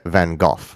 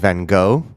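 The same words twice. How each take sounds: First: The name ends with a throaty sound. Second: The name ends on a plain vowel. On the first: This is the more proper way to say it. "more properly pronounced Ge- Van Gogh ... the G H is like cough at the end" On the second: This is the traditional way to say it. "the traditional pronunciation is Van Gogh"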